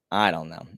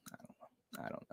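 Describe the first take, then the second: First: Said in the usual way. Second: Breathed out, barely audible; whispered. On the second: Real, not acted. Streamer trailing off to chat, whispering. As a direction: let it fade into a whisper. Repeated I don't know, fading.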